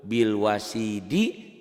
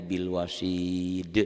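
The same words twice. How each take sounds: First: Bil wasidi read through, final -di fully voiced; full ending. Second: Bil wasid with long i and bounced d; qalqalah stop. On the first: Teacher shows the word before stopping on it, full ending. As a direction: sound the last i of "Bil wasidi". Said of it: "dihentikan jadi bil wasid". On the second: Teacher shows what it becomes when stopped, bouncing qalqalah. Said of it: "dihentikan jadi". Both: Shown as a demonstration.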